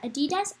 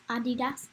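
First: Adidas as uh-DEE-dass, rising; Adidas with a weak first vowel, as a question; alternate pronunciation. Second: Adidas as AH-dee-dass; Adidas, front-stressed, ending in "dass"; alternate pronunciation. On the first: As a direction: ask Adidas with the weight on DEE. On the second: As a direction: say Adidas with an open first "ah". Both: Shown as a demonstration. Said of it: "How do you guys say it?".

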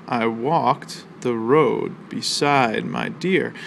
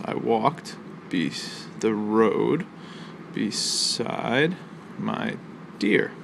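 First: Very slow, even read of the whole line; drawn-out recital of one verse line. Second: Broken into pieces, pausing after "walked", "road", "beside" and "dear" with a beat on each; slow, halting scansion of "I walked the road beside my dear". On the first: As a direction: say the line slowly so the class can hear the beats. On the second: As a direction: tap out the four stresses with a pause after each one. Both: Shown as a demonstration. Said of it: "we have four emphasized syllables".

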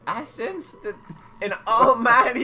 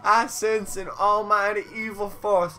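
First: Character voice. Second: Put-on southern accent. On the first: Acted. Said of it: "forget the voice you were doing". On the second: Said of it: "turn into Foghorn Leghorn".

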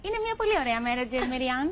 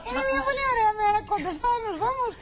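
First: Mock dubbed soap line. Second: Much higher, louder and faster, hammed-up soap heroine; the host copies her friend's telenovela voice; imitating the dubbing voice. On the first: Asked by the host to do her dubbing voice, mock telenovela heroine. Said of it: "θα με βάλεις τώρα να κάνω μεταγλώτηση". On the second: Host mimics the guest's dubbing bit, hammed-up and high.

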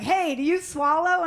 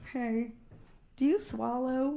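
First: Said in the usual way. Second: Soft, low, tender asking; really sweetly. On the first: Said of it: "guys will say to me". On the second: Retold or imitated. Lovely guy asking her, really sweetly. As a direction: ask it gently, like a shy sweet lover. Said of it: "asked me really sweetly".

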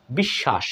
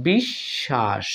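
First: Said in the usual way. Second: বিশ্বাস said very slowly, the শ held long as a double sh, no b sound; doubled sh sound. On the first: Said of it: "দ্বিত্ব উচ্চারণ হচ্ছে". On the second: Shown as a demonstration. Teacher shows students how বিশ্বাস is really pronounced, slow and stretched. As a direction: stretch বিশ্বাস out as বিশশাস, the b silent. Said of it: "বিশ্বাস শব্দটা এভাবে উচ্চারণ হয়ে যাচ্ছে".

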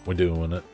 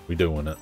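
The two takes are said the same way.

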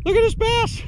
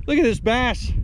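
First: Squeaky high excited cry, far higher pitch; voice going high. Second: Excited. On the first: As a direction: let your voice jump way up in delight. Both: Real, not acted. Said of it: "My voice, my voice getting a little high".

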